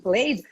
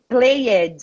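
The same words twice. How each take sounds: First: The word is said with one syllable. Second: The word is said with two syllables. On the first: The speaker calls it right. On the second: The speaker calls it wrong.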